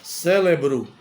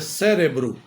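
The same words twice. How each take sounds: First: The middle consonant is an l sound. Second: The middle consonant is an r sound. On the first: The speaker calls it wrong. "Não é cérebro" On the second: The speaker calls it right. "é cérebro. Cérebro é com R, não tem o L"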